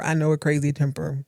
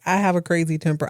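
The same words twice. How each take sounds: First: "know" leaned on in "I know a crazy temper"; stress on know. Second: "have" leaned on in "I have a crazy temper"; stress on have. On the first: Blake imagined explaining the hookup, stress on "know". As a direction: push the word "know" as knowing it well. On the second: Blake imagined confessing his temper, stress on "have". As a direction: push the word "have" as the admission. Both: Retold or imitated.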